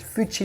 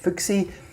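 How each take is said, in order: First: The middle consonant is a 'ch' sound. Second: The middle consonant is a 'ks' sound. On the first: The speaker calls it right. "the X is pronounced C H, so it's Fuchi" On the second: The speaker calls it wrong. "I was pronouncing it Fuxi"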